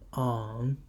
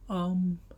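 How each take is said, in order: First: The syllable is said with the third tone. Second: The syllable is said with the first tone.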